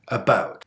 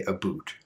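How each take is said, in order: First: "about" with a small relaxed ow vowel, not oo; real Canadian about. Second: "a boot" with an oo vowel, dismissed as wrong; stereotyped a boot. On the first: Teacher shows the real Canadian "about". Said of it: "we say about". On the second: Teacher denies Canadians say "a boot". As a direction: say "a boot" with oo, rejecting it. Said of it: "We don't say a boot". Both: Shown as a demonstration.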